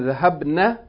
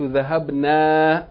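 First: The final vowel is short. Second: The final vowel is long. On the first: They (women) went. "The noon is with a short vowel" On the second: We went. "If you elongate that noon"

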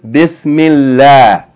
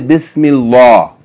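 First: The L is light, said with a thin mouth. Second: The L is heavy, said with a full mouth. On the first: The speaker calls it right. "like you say" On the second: The speaker calls it wrong. "You don't say Bismillah. That's wrong"

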